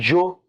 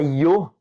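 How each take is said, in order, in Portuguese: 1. Começa com som de dj. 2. Começa com som de ee. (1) "Como se fosse um D, um J e um O" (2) "parece um I, O"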